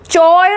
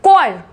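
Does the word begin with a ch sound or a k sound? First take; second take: ch sound; k sound. First: The word begins with a ch sound. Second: The word begins with a k sound. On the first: The speaker calls it wrong. "चॉयर नहीं बोलते ना" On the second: The speaker calls it right.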